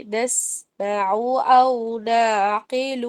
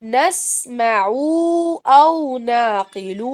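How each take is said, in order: First: نسمع with a spread smiling mouth, running smoothly into أو نعقل; a slow connected recitation of نسمع أو نعقل; correct recitation. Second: نسمع and أو نعقل chopped apart, with a heavy stressed أو; a deliberately faulty reading with a pause before أو; wrong recitation. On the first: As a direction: smile through نسمع and keep the phrase flowing. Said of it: "نسمع میں اسمائلی face بنائیے". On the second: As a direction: demo the mistake: separate نسمع from أو نعقل. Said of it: "یہ نہیں پڑھنا". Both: Shown as a demonstration.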